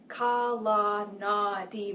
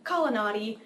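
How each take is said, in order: First: Each syllable is said separately with full vowels. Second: The syllables run together with reduced schwa vowels. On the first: "quite phonetically" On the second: "it gets kind of mushed"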